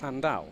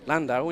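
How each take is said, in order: First: The name is said with a Welsh sound. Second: The name is said with an English sound.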